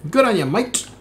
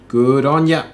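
First: Put-on Aussie accent pitched higher, a cheery jokey try; over-the-top Aussie "good on ya, mate"; hammed-up Aussie accent. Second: Put-on a light first go at an Aussie accent; tossed-off Aussie praise, only a hint of the accent; casual Aussie accent, barely put on; mock Aussie accent. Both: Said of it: "the extent of my Aussie accent".

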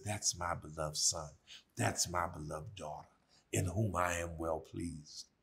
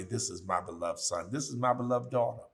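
First: A quiet inner voice of approval; little voice. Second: Said in the usual way. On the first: Retold or imitated. God's little voice to a beloved child, soft and low. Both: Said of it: "That little voice that says".

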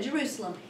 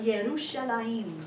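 First: Said in the usual way. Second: Yerushalayim drawn out as ye-roo-sha-LAH-yeem; Hebrew pronunciation. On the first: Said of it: "we say it like I just said". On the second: Shown as a demonstration. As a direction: say Yerushalayim slowly, the Hebrew way, ending in -ayim. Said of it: "In Hebrew".

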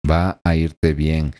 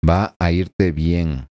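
Both takes have the same delivery.

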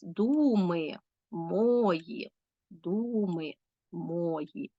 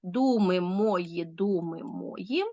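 First: Very slow «Думи мої, думи мої», stretching ДУ and МО; «Думи мої, думи мої» very slowly, every trochee marked; marked stresses. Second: Slow, syllable-by-syllable «Думи мої, думи мої»; «Думи мої, думи мої» slowly divided syllable by syllable; split into syllables. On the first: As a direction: scan «Думи мої, думи мої» with drawn-out stress on each first syllable. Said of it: "повинні поставити наголос". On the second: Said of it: "повинні поділити рядки на склади". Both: Shown as a demonstration.

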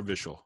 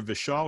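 First: Vishal stressed on the first syllable; alternative pronunciation of name. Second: Vishal stressed on the second syllable; first pronunciation of name. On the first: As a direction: say Vishal as VISH-ul, with a reduced final vowel. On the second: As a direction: say Vishal as vi-SHAWL, with a full final vowel. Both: Shown as a demonstration. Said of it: "Is there Vishal or Vishal?".

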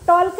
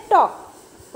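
First: टॉल्क with the L sounded before the k; L wrongly pronounced. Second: टॉक with no L sound at all; silent L. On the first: Teacher showing the mistake, L voiced in टॉल्क. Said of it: "टॉल्क नहीं बोलते". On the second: Teacher correcting the class, टॉक with silent L. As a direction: go straight from vowel to k in टॉक. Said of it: "क्या बोलते हैं?". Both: Shown as a demonstration.

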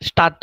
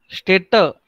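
First: Stadt said as "shtah-tuh", no umlaut; wrong vowel demo. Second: Städte said "shtay-tuh", with "ay"; correct umlaut pronunciation. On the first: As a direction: show the mistake, Stadt with "ah" and an added "uh". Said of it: "Stadt नहीं". (Stadt का गलत रूप "श्टाटे", "आ" के साथ) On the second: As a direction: model Städte with a clear "ay" vowel. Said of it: "Pronunciation perfect करने का है". (Städte का सही उच्चारण, "ए" के साथ) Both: Shown as a demonstration.

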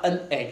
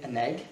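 First: AN hit on its own, cut off from egg; stressed, separated article. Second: Weak AN running into egg, "uh-negg"; unstressed linked article. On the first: Teacher showing a pupil what not to say, stressed AN. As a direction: punch AN, then say egg separately. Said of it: "c'est pas an egg". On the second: Teacher showing the right way, unstressed AN. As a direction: slide AN lightly onto a stressed egg. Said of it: "c'est an egg". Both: Shown as a demonstration.

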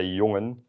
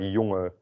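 First: Jongen said in full, the final n clearly sounded; formal jongen with the final n. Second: Jongen with the final e stressed and the n dropped; Rotterdam-style jongen. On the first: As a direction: say jongen carefully with a clear n at the end. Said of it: "one boy, you would say jongen". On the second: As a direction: lean on the e of jongen and drop the n at the end. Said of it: "they will put more emphasis on that E". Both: Shown as a demonstration.

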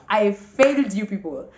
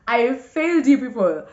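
First: Said in the usual way. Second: Louder, higher mock lament. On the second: Real, not acted. Vlogger confessing to her viewers, louder mock lament. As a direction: raise the pitch and volume on I failed you people. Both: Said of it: "Guys, I did not see it coming".

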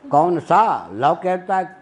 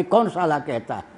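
First: Slow कौन सा, then लॉ as its own word; सा लॉ split apart. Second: साला run together as a swear word, falling tune; साला as one word. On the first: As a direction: stretch सा and break before लॉ. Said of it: "कौन सा कानून कहता है". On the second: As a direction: slip out कौन साला in one phrase. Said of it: "कहीं मुंह से गाली निकल गई थी". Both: Retold or imitated.

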